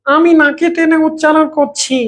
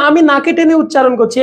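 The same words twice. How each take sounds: First: Slow, higher, pulled through the nose; exaggerated nasal. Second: Said in the usual way. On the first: Shown as a demonstration. Teacher shows forced nasalisation to the class, exaggerated nasal drawl. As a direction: drag every word out through your nose. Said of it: "এই কথাটাকে এরকম বলবো". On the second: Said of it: "এই কথাটা তো আমি স্বাভাবিকভাবে বলছি".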